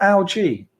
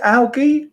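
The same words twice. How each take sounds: First: "algae" with a soft g, as AL-jee. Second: "algae" with a hard g, as AL-ghee. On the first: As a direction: say "algae" with a j sound. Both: Shown as a demonstration. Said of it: "Is it algae or algae".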